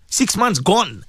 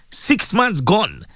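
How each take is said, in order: First: Said in the usual way. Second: Slow emphatic repeat. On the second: Real, not acted. Host marvelling to listeners at half the year gone, slowly. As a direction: drag it out, slowly.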